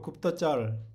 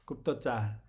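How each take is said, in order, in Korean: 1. 마지막 음절은 중간 'uh' 모음이에요. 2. 마지막 음절은 열린 'ah' 모음이에요. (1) "짤도 아니고 굽도쩔, 쩔네요" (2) "짤도 아니고"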